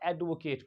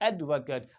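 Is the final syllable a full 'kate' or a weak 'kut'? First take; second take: kate; kut. First: The final syllable is a full 'kate' sound. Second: The final syllable is a weak 'kut' sound. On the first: It is used as a verb. "वर्ब की तरह इस्तेमाल हो रहा है तो वहां पे आप एडवोकेट पढ़ते हैं" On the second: It names a person, as a noun. "किसी पर्सन के बारे में ... वो नाउन है"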